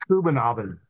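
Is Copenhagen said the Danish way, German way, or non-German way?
Danish. It is said in a Danish-style pronunciation. This is how a Dane would say it. "I think. Something like that"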